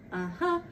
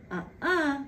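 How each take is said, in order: First: Lower, mock kid's yes; the other child insisting back; a child's insistent uh-huh; kid saying yes. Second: Higher, mock kid's no; squabbling child refusing; a child's stubborn uh-uh; kid saying no. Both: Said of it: "My two youngest like to do the whole uh-uh".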